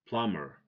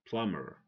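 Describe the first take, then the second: No difference in how they are said.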